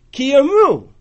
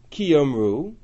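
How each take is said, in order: First: Yomru hit higher and louder; stress on yomru. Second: Said in the usual way. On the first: Shown as a demonstration. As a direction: punch yomru with a falling tone. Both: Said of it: "Do you hear the difference?".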